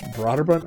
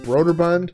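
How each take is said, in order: First: The first syllable does not sound like 'Broder'. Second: The first syllable sounds like 'Broder'. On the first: This is how someone else said it. The speaker calls it right. "and it's Broderbund" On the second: This is how the speaker always said it. The speaker calls it wrong. "I've been saying Broderbund ... just like Broder"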